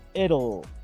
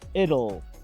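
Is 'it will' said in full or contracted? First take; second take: contracted; contracted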